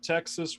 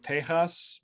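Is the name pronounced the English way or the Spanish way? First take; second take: English; Spanish. First: The name is said with an English pronunciation. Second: The name is said with a Spanish pronunciation. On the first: "we don't pronounce it Texas" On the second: "Where I'm from, we pronounce it Tejas"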